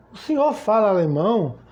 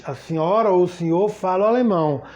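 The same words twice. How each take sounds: First: "O senhor fala alemão" as a question; question tune. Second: "fala alemão" stated with a final fall; statement tune. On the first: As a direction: ask "fala alemão" with Brazilian question melody. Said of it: "Como é que eu pergunto?". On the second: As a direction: state "A senhora ou o senhor fala alemão" conclusively. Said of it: "Primeiro eu afirmo". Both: Shown as a demonstration.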